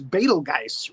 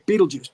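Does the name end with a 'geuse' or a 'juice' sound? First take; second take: geuse; juice. First: The name is said as spelled, ending in 'geuse'. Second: The name is said like 'beetle juice'. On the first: This is how the name is really spelled. "his name is actually spelled B E T E L G U G E U S E, which is Betelgeuse, really" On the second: This is how the character says his own name. "He pronounces it Beetlejuice"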